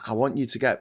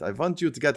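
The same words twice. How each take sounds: First: It is said in the speaker's ordinary accent. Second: It is said in a put-on Russian accent.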